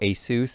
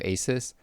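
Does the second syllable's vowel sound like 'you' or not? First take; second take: like 'you'; not like 'you'. First: The second syllable's vowel sounds like 'you'. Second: The second syllable's vowel does not sound like 'you'.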